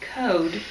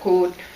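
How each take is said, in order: First: The word is said in a standard accent. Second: The word is said in a Minnesotan accent. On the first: "I can say it when I'm focused on it" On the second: "it comes out code"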